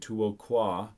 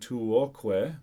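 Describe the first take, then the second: First: The word ends with an a vowel. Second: The word ends with an e vowel. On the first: The speaker calls it right. "you would basically say tuoqua" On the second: The speaker calls it wrong. "instead of saying tuoque"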